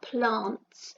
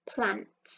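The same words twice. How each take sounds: First: It has a long southern English ah vowel. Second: It has a short northern English a vowel.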